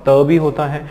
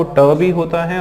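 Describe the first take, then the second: First: त with the tongue on the teeth, as in तरबूज; soft T sound. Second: ट with the tongue curled back, as in टुडे; hard T sound. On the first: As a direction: make त a soft dental sound. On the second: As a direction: make ट a hard retroflex sound. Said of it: "अब आप देखो ट भी होता है". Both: Shown as a demonstration.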